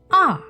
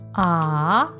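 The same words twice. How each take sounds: First: The pitch falls sharply from high to low. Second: The pitch rises from mid to high. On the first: "let your voice go all the way down" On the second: "your voice to go up"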